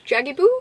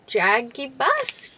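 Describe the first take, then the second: First: JAGIBOO ending in an open "boo"; second guess at JAGIBOO, silent final S; unsure pronunciation. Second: JAGIBUS with a final S, drawn out slowly; unsure pronunciation. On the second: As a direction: try JAGIBUS slowly, sounding the last S. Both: Real, not acted. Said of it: "I don't know how to say it".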